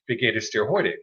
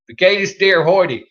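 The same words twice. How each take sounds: First: It is said with a standard German accent. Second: It is said with a heavy Southern American accent.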